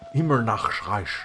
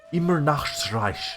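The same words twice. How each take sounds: First: It is said in an imitated character voice. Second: The same.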